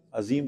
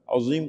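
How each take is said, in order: First: 'عظیم' with plain thin Z; everyday pronunciation. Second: 'عظیم' with heavy rounded TH-like Z; correct heavy letter. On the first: Teacher mimicking how people say the name, light Z. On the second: Teacher giving the word correctly before asking, heavy letter. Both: Shown as a demonstration. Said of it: "لوگ کیا بولتے ہیں".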